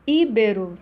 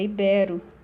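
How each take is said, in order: First: The stress is on the first syllable. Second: The stress is on the second syllable. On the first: The speaker calls it wrong. "Íbero é ibero" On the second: The speaker calls it right. "Íbero é ibero"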